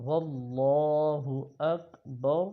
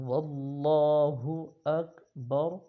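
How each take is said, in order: The two takes are said the same way.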